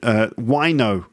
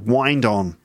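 First: The D sound is dropped between the words. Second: The D sound is clearly pronounced before 'on'.

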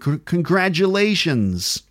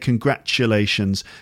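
First: The middle consonant is a voiced j sound. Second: The middle consonant is a voiceless ch sound. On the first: This is the American pronunciation. "and in American" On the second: This is the British pronunciation. "And I say congratulations. Ch"

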